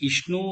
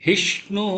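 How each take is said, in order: First: The word begins directly with a vowel. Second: The word begins with a breathy h sound. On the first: The speaker calls it wrong. "இஷ்ணு இல்ல" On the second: The speaker calls it right. "ஹி தொண்டையிலிருந்து வரணும்"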